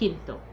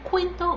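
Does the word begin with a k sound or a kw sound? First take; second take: k; kw. First: The word begins with a plain k sound. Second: The word begins with a kw sound. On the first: The speaker calls it right. "but quinto" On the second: The speaker calls it wrong. "not quinto"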